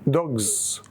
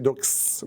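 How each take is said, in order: First: The plural ending sounds like z. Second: The plural ending sounds like s. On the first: The speaker calls it right. "Morpheme is pronounced z" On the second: The speaker calls it wrong. "I don't say dogs"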